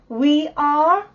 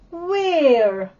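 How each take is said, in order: First: It is said as two separate syllables. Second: It is said as one contracted syllable.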